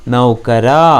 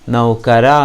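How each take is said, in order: Both takes have the same delivery.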